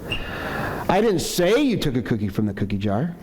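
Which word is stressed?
say. The word "say" carries the strongest stress. It was implied but not said aloud. "maybe I'm accusing you, but I haven't said it yet"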